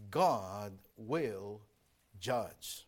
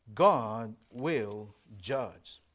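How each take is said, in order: First: Said in the usual way. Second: God will judge, each word drawn out very slowly and lower; solemn, dragged out warning; slow weighty repeat. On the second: Shown as a demonstration.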